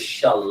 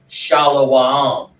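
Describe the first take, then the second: First: The word is said with two syllables. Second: The word is said with three syllables. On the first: The speaker calls it right. "The word is shalom" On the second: The speaker calls it wrong. "the fake Hebrew saying shalawam"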